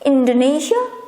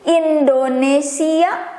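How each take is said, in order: First: It is pronounced the English way. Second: It is pronounced the Indonesian way. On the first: "but in English it's Indonesia" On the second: "I will pronounce my own country name, country's name with the way I pronounce it"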